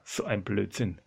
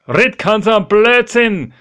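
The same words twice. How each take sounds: First: Low, soft dismissive thought; private disbelief. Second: High, loud dismissive call; loud retort. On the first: Petrus privately dismisses the idea, low and soft. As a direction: say it under your breath to yourself. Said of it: "Denkt sich der Petrus". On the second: Petrus calls back to the supposed ghost, loud scornful retort. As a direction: shout the disbelief across the water. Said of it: "und sagt". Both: Acted.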